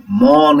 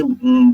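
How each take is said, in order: First: "म" with its inherent a vowel, held high and open; full म with vowel. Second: "उम" closing on a bare hummed m; halant म, no vowel. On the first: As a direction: say "म" as a whole syllable, vowel sounded. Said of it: "बोला जाता, क नहीं बोला जाता". ("म" पूरा, अ स्वर के साथ) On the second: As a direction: end "उम" on closed lips, no vowel after the m. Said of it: "क्योंकि हलंत लगा हुआ है". ("उम" में म आधा, बिना अ स्वर के) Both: Shown as a demonstration.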